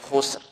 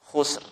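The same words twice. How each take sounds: No difference in how they are said.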